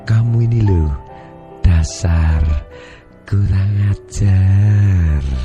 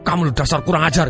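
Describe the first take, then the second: First: It is said in a tender, loving tone. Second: It is said in an angry tone.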